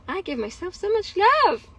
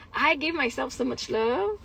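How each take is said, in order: First: "love" swooping up high, then falling; emphatic repeat. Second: Said in the usual way. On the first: Real, not acted. Woman insisting on her self-care, "love" stressed high and falling. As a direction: lean hard on "love" with a big pitch rise.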